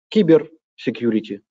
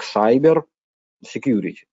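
First: The first word begins with a 'ki' sound. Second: The first word begins with an English 'sai' sound. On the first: This is a simpler, easier pronunciation. "иногда говорят кибер security. Проще и понятней" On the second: This is the official pronunciation. "официально это надо произносить как cyber security"

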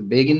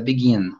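First: The stress is on the first syllable. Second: The stress is on the second syllable. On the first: The speaker calls it wrong. "Só a sílaba tônica que você tinha dito begin" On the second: The speaker calls it right. "mas é begin"

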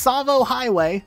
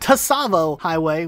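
First: The opening T sound is soft, barely heard. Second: The opening T sound is strongly overemphasized. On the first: The speaker calls it right. "It's pronounced Savo Highway" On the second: The speaker calls it wrong. "with an overemphasis on the T sound"

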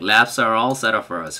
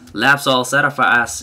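First: The word 'are' is clearly said after 'labs'. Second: The word 'are' is dropped after 'labs'. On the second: "I'm sorry for my bad impression of that"

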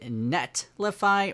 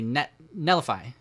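First: The T sound in the middle is clearly pronounced. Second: The T sound is dropped in a quick saying. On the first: "Is it Netlify" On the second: "I always just say really quickly Nellify. And you don't really hear the T"

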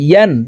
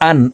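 First: The syllable starts with a clear y sound. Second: The syllable starts with a glottal stop, no y. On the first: The speaker calls it right. "ইয়ার উচ্চারণ জিব্বার মধ্যখান থেকে পড়তে হবে" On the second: The speaker calls it wrong. "ইয়ার উচ্চারণ হামজার উচ্চারণ করে পড়ি, ইয়া আলিফ দুই জবর আন এইভাবে পড়ে থাকি"

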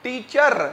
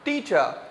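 First: The final r sound is strongly pronounced. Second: The final r sound is soft or silent. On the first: The speaker calls it wrong. "टीचर no" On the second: The speaker calls it right. "आर की आवाज ज्यादा नहीं निकालनी है"

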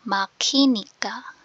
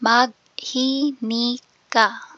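First: The g and h merge into aspirated k. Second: The g and h are pronounced separately.

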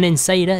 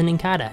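First: The middle consonant is an s sound. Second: The middle consonant is a k sound. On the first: The speaker calls it wrong. "Not an Insada" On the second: The speaker calls it right. "You put a K on the C"

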